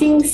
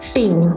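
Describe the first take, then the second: First: The pitch stays high and level. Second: The pitch dips low and then rises.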